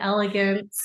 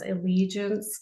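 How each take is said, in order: First: The name sounds like the word elegance. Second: The name sounds like the word allegiance. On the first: The speaker calls it wrong. "they all pronounce it elegance" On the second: The speaker calls it right. "so it's allegiance"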